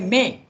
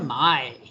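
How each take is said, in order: First: The vowel is a British or American 'ay'. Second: The vowel is an Australian 'ay' sounding like 'my'. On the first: "In America and in uh, England, they will say" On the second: "But in Australia, they'll say"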